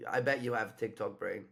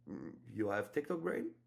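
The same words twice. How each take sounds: First: Put-on easy, familiar tease, like an old friend; confident teasing. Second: A timid question without confidence; unsure, hesitant. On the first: Coach shows the right frame for opening a woman on her phone, familiar and teasing. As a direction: tease her like you've known her for years. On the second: Coach shows the wrong frame for opening a woman, hesitant and quiet. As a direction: ask it shyly and tentatively. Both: Shown as a demonstration. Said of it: "That's not gonna work".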